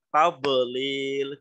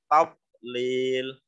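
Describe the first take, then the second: First: The middle consonant has an echoing bounce. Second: The middle consonant has no echoing bounce. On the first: The speaker calls it wrong. "Jangan dipantulkan karena dot, huruf dot bukan termasuk huruf qalqalah. Jangan dibaca tadlil" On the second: The speaker calls it right. "tetapi tadlil"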